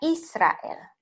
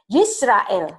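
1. Nama itu dimulai dengan vokal 'ee'. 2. Nama itu dimulai dengan bunyi luncuran 'y'.

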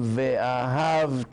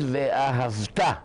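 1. המבטא על ההברה שלפני האחרונה. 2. המבטא על ההברה האחרונה. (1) "לא אומרים" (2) "צריכים להגיד, ואהבת, לשון ציווי"

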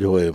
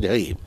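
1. Первый гласный звук — «o». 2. Первый гласный звук — «a». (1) "если по-ашкенасски, можно сказать гоим" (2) "Если по-сефарски, можно сказать гаим"

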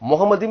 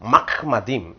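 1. இந்தச் சொல் 'muka' என்று தொடங்குகிறது. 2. இந்தச் சொல் 'mach' என்று தொடங்குகிறது. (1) "முகமதிம் என்று சொன்னார்"

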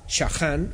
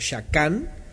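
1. La consonante del medio es un sonido rasposo de garganta. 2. La consonante del medio es un sonido k duro. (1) "con Haf, Shahan ... la sefardí es Shahan"

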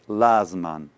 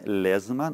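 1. Первый гласный — открытый звук 'a'. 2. Первый гласный — звук 'e'. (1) "то тоже будет Лазман" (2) "Не Лезман"

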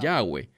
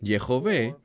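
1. Se dice con un sonido w en el medio. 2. Se dice con un sonido v en el medio. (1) "erradamente la gente que no habla hebreo pronuncia Yahweh" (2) "apropiadamente se pronunciaría como Yehové"

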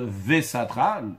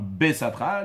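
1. Le mot commence par le son v. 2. Le mot commence par le son b. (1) "lui, il va dire vesatra, un vet à la place d'un bet" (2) "s'il fallait accentuer, il fallait mettre un point"

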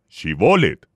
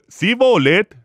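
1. La palabra empieza con un sonido 'sh'. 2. La palabra empieza con un sonido 's'. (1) "Cuando no pudieron pronunciar apropiadamente la sh" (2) "solo podían decir Sibolet"

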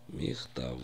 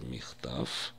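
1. Слово заканчивается звонким звуком «в». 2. Слово заканчивается глухим звуком «ф». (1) "в иврите нужно четко произносить звук «в» в конце слова" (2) "многие произносят «ф» в конце слова вместо звука «в»"

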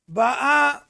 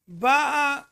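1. ההטעמה על ההברה האחרונה. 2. ההטעמה על ההברה הראשונה. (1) "באה זה לשון הווה" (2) "באה זה לשון עבר"

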